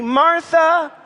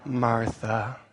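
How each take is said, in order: First: MARTHA high, loud and stretched; rebuking intonation. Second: MARTHA low, soft and drawn out; rebuking intonation. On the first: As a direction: lead the room in a high, warning MARTHA. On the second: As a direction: drop MARTHA down low and quiet in reproof. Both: Shown as a demonstration. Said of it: "let's practice together".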